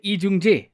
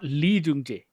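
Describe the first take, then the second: First: The name begins without an L sound. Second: The name begins with an L sound. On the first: The speaker calls it right. "you're not supposed to pronounce the L" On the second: The speaker calls it wrong.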